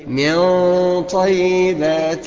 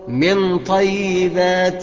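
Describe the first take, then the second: First: The n is hidden with a nasal hum. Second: The n is pronounced clearly and fully. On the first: The speaker calls it right. "الصحيح بقى ان انا اقول" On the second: The speaker calls it wrong. "الخطأ فيها ان انا اقول من طيبات"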